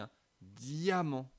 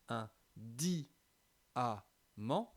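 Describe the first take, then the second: First: The i glides into the a as one syllable. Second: The i and a are split into separate syllables. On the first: The speaker calls it right. "on dit un diamant" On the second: The speaker calls it wrong. "on ne va pas dire un di-a-ment, on ne dit pas ça"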